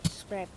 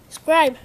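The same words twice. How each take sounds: First: Said in the usual way. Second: Loud higher shout. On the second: Real, not acted. Vlogger shouting at viewers to subscribe, loud shout. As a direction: bark the word out.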